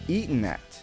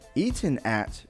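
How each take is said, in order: First: The two words run together into one. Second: The two words are said separately and clearly.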